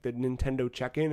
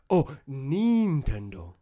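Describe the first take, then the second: First: Said in the usual way. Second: Nintendo with a long, drawn-out "neen" first syllable; imitated local pronunciation. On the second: Customs man correcting the tourist's Nintendo, imitated pronunciation. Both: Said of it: "careful with how I pronounce things".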